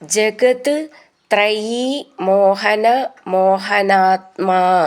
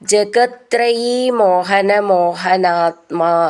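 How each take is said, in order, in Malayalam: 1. jagat ഉം trayi ഉം വേറെ വാക്കുകളായി പറയുന്നു. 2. jagat ഉം trayi ഉം ചേർന്ന് ഒരു വാക്കായി പറയുന്നു.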